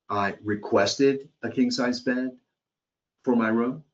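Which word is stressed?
requested. The word "requested" carries the strongest stress. The request was made but not recorded. "This sounds like the customer is upset that they requested a king, um, but someone, it would, the request was not noted"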